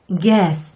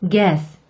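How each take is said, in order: The two takes are said the same way.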